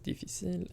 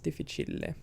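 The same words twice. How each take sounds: First: It is pronounced the French way. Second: It is pronounced the Italian way. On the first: "In French, it is difficile" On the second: "in Italian, it's difficile"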